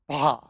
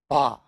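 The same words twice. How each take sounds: The two takes are said the same way.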